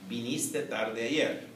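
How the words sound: It has the intonation of a statement. It states that the listener came late yesterday. "diríamos en una afirmación"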